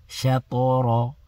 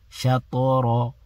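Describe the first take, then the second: The two takes are said the same way.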